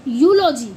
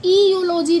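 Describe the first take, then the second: First: यूलॉजी said "yoo-lo-jee", lower and firm; यूलॉजी starting straight on "yoo"; correct pronunciation. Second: ईयूलॉजी read as "ee-yoo-lo-jee"; ईयूलॉजी with a long "ee" sound at the start; wrong pronunciation. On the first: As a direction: model the right यूलॉजी. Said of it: "इसको हम पढ़ते हैं". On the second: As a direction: show the mistaken ईयूलॉजी. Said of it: "ईयूलॉजी नहीं पढ़ते". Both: Shown as a demonstration.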